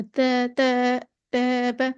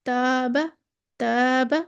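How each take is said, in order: First: "तै, तैबा" with the alif bent towards "ay"; over-thin, tilted first vowel in "तैबा"; गलत इमाला. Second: "तैबा" with a light "aa", not bent to "ay"; thin but open first vowel in "तैबा"; सही बारीक अलिफ. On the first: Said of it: "इतना भी नहीं झुका देना". ("तैबा" में अलिफ झुकाकर, इमाला के साथ) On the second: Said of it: "ऐसे नहीं कहना". ("तैबा" का अलिफ बारीक, बिना इमाला) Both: Shown as a demonstration.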